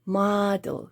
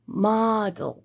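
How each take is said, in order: No difference in how they are said.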